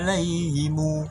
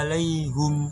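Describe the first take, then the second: First: The word ends in 'himu' with an extra u. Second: The word ends in 'hum' with a u vowel. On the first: "Him berubah jadi himu" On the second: "Huruf H bukan kasroh tapi doma"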